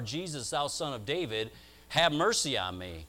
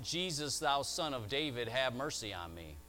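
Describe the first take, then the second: First: It is cried out in a raised voice. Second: It is cried out at ordinary loudness.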